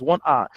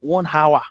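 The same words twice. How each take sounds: First: Hour is said with no h sound at the start. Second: Hour is said with an h sound at the start. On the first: The speaker calls it right. "there is no h in front of those words" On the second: The speaker calls it wrong. "it's not one hour"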